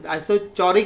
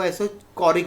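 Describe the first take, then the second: First: "isochoric" with ch as in chair; ch pronunciation. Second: "isochoric" with a hard k; k pronunciation. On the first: Teacher showing students a variant some people use, "isochoric" with a ch sound. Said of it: "बोलते हैं कई लोग उसको". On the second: Teacher showing students the other variant, "isochoric" with ch said as k. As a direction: say "isochoric" as iso-KO-rik. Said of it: "कई लोग isochoric बोलते हैं". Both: Shown as a demonstration.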